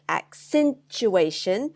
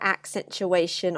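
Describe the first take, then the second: First: The syllable stress is strongly exaggerated. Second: The syllable stress sounds normal and unmarked.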